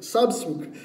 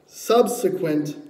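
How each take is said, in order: First: "subsequent" botched, breaking off after the first syllable; tripping over word. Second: "subsequent" said slowly, every syllable complete; careful correction. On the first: Preacher trips on "subsequent" reading the verse, fumbled and cut short. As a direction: stumble on "subsequent" and leave it unfinished. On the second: Preacher retries "subsequent" after tripping on it, slow and careful. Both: Real, not acted. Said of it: "I wish that was a Greek word".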